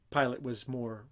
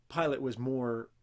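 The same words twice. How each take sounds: The two takes are said the same way.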